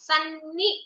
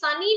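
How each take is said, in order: First: The n sound is held long and doubled. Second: The n sound is short and single. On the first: The speaker calls it right. "આમ કરશો ને તો બે ના આવશે" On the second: The speaker calls it wrong. "ખાલી સની નહીં બોલવાનું"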